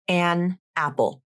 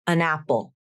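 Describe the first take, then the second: First: The words are said separately, without linking. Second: The n sound joins onto the next word. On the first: "I'll read the phrase without linking" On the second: "Now with linking"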